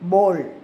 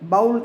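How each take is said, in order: First: The vowel sounds like 'oh' in go. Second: The vowel sounds like 'ow' in cow. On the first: The speaker calls it right. "அதோட பேர் போல்" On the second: The speaker calls it wrong. "பவுல் கிடையாது"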